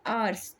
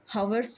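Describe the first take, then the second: First: आवर्स said with a silent h, starting on the vowel; correct pronunciation. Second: हावर्स said with a clear h sound at the start; wrong pronunciation. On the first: Teacher to students, showing the right way: आवर्स without h. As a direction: open आवर्स straight on the vowel, no h. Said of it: "क्या बोलते हैं". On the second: Teacher to students, showing the wrong way: हावर्स with h. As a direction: pronounce हावर्स with a breathy h before the vowel. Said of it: "हावर्स तो बोलते नहीं है". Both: Shown as a demonstration.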